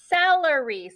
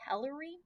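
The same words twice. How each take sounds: First: The word starts with an s sound. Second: The word starts with a k sound. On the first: The speaker calls it right. "a soft C is anytime we have a C and it has an E or an I after it" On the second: The speaker calls it wrong. "But does that sound right? Nope"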